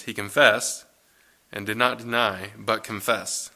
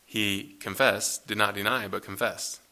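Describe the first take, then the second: First: Said in the usual way. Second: Slow, deliberate He confessed, did not deny, with each word weighed; emphasized slowly. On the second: Shown as a demonstration. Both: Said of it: "Really emphasizing his answer there".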